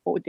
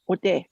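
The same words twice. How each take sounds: First: Ode drawn out slowly, oh-deh; slow Ojibwe word. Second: Said in the usual way. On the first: Shown as a demonstration. Teaching the Ojibwe word ode, said slowly. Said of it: "the first part of that word, ode, it means heart". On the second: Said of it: "the first part of that word".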